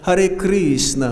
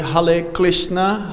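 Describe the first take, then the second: First: It is said in a Russian accent. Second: It is said in a Chinese accent without R. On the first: "It's like in Russia" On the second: "they don't have R. So they say"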